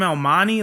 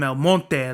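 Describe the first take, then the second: First: "El Monte" as el MON-ee, with the t dropped; the gringo "El Monte"; "El Monte" said like an outsider; anglicized El Monte. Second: "El Monte" as el MOHN-teh, with Spanish vowels; "El Monte" said the right way, like it's home. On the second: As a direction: say "El Monte" like the locals. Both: Shown as a demonstration. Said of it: "you gotta say it like that".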